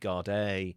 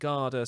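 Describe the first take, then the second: First: The word ends in a long 'ee' sound. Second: The word ends in a short 'ah' sound. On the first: "Some people say Gardaí" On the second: "Some people pronounce it Garda"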